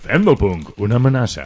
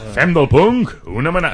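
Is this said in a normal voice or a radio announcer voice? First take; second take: radio announcer; normal. First: It is said in a put-on radio announcer voice. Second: It is said in an ordinary speaking voice.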